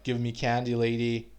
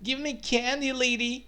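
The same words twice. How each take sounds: First: It is said in a harsh, aggressive tone. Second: It is said in an odd, funny tone. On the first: "you can say it like really aggressively" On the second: "usually you don't say it like that. Like it's it's, it's weird. It's funny"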